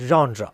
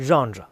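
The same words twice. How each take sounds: No difference in how they are said.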